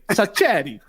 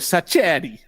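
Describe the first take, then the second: First: The name is said in an Italian accent. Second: The name is said in a plain English accent. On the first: The speaker calls it right. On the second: The speaker calls it wrong.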